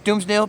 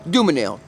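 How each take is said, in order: First: The name is said with an s sound. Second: The name is said without an s sound. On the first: This is how the speaker personally pronounces it. The speaker calls it right. "I pronounce it as Doomsnil" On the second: This is how the name is usually pronounced. The speaker calls it wrong. "Pronounced Doomanil"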